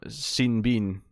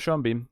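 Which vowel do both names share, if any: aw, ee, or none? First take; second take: ee; none. First: Both names share an ee vowel. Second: The two names have different vowels. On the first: "I want to call him Scene Bean" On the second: "looks like it should rhyme, but it doesn't"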